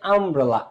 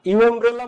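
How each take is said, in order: First: The word begins with an 'uh' sound. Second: The word begins with a 'yoo' sound. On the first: The speaker calls it right. "আ।" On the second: The speaker calls it wrong. "ইউ এমব্রেলা বলো"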